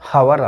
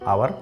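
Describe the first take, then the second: First: The word starts with an h sound. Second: The word starts with a vowel sound. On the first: The speaker calls it wrong. "ಹವರ್ ಅಲ್ಲ" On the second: The speaker calls it right. "ಹ ಸೌಂಡನ್ನು ಕೆಲವು ಕಡೆ silent ಮಾಡ್ತೀವಿ"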